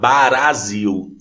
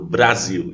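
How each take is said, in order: First: The word is said slowly. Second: The word is said quickly. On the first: "eu comecei a falar devagar" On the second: "até falar Brasil rápido"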